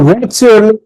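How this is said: The voice rises at the end. The speaker calls it wrong. "তাহলে উপরে উঠে গেল।"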